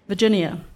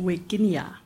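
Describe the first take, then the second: First: The name is said the ordinary English way. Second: The name is said the old Latin way.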